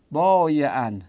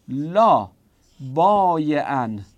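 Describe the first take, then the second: First: Said in the usual way. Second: Slow dictation. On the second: Shown as a demonstration.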